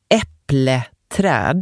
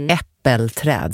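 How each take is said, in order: First: The first part is said as 'äpple'. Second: The first part is said as 'äppel'. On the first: This is a regional dialect form. "det säger man nog där jag kommer ifrån, Småland" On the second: This is the more common form. "Äppelträd säger man kanske"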